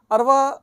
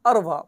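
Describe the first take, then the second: First: Arwa called out higher and louder; emphatic repeat. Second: Said in the usual way. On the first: Shown as a demonstration. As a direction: announce Arwa with a lifted, loud voice. (اروا اونچی اور بلند آواز میں)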